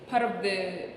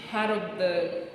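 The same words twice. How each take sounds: The two takes are said the same way.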